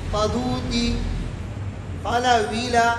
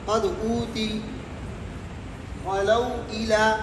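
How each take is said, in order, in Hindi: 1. स्वर ग्लॉटल स्टॉप के बिना पिछले व्यंजन से जुड़ जाता है। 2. ग्लॉटल स्टॉप दूसरे शब्द की शुरुआत करता है। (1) "नंबर तीन नक़ल हरकत" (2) "नंबर एक आदम सकता"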